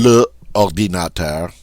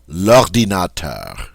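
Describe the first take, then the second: First: The full article is said separately before the noun. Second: The article is elided and joined to the noun. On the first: The speaker calls it wrong. "doesn't that sound better than le ordinateur?" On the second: The speaker calls it right. "doesn't that sound better"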